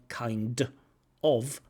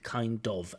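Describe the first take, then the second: First: The two words are said separately. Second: The two words are linked together. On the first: "not kind of" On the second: "but kind of"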